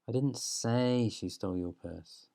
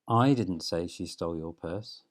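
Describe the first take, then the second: First: The stress falls on the word 'say'. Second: The stress falls on the word 'I'.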